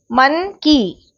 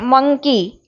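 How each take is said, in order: First: मन की slowly, as two separated syllables of one word; slow teacher's split of मन की. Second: Said in the usual way. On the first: Shown as a demonstration. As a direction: pull the word apart into मन and की. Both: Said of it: "इसमें दो syllable हैं".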